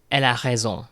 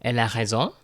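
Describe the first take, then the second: First: "Elle a raison" falling at the end; "Elle a raison" with a closed, falling tune; declarative statement. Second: "Elle a raison" rising sharply on "raison"; "Elle a raison" as a rising question; question by intonation. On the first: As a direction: state "Elle a raison" as fact, pitch dropping on "raison". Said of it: "start off with a declarative sentence". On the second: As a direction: ask "Elle a raison" with the pitch lifted at the end. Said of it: "I'm raising the intonation at the end". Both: Shown as a demonstration.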